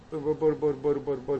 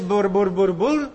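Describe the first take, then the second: First: «μπορ, μπορ» babbled much softer and slow; quiet, slow nonsense babble; soft babbling. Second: «Μπουρ, μπουρ» babbled as nonsense syllables; stammering-lips babble; babbling bur bur. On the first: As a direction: murmur «μπορ» like first stammering tongues. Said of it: "τι λες τώρα εκεί, ας πούμε". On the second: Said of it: "και λες". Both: Shown as a demonstration.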